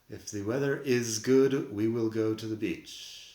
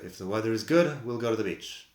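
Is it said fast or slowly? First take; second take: slowly; fast. First: It is said slowly, with full forms. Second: It is said fast, with contractions.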